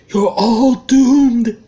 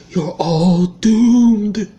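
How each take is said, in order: First: Louder ominous doom warning, slow; Crazy Ralph impression. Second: Slow ominous raspy drawl; creepy prophet of doom, dragged out; Crazy Ralph impression. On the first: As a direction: draw out the doom, even bigger. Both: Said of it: "I'd give it that because I'm actually pretty good at doing voices".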